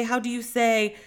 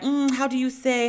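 First: Repeating in a lightly faked Spanish accent; a hint of fake Spanish accent, trailing off; mock Spanish accent. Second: Imitating a put-on Spanish accent, a bit higher; lightly mocking a fake Spanish accent, searching for words. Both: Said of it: "she has a whole accent and will be like".

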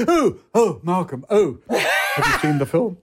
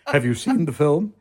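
First: Excited Gielgud. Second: Said in the usual way. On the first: Retold or imitated. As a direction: gush at Malcolm in the street. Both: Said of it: "He went".

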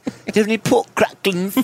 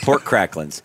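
First: High British accent on pork cracklings. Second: Said in the usual way. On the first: Shown as a demonstration. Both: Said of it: "sounds so funny in a British accent".

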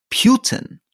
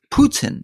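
First: "Putin" with a y-glide, PYOO-tin; mistaken pronunciation. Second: "Putin" with a plain oo, POO-tin; correct Russian pronunciation. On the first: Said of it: "Alistair's pronunciation would be the U". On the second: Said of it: "he's been saying Putin wrong all his life". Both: Shown as a demonstration.

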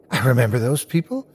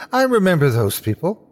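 First: Tentative, rising realisation; dawning recognition. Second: Higher, surer realisation; excited recognition. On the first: Boy spots a couple ahead, tentative recognition. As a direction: say it wondering, lifting at the end. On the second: Boy realises he knows the couple, high and excited. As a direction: lift the pitch as recognition takes hold. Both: A narrator's reading.

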